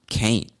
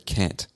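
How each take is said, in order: First: The vowel rhymes with ain't. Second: The vowel rhymes with ant. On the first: "Sounds like the word ain't" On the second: "a lot of people will say can't"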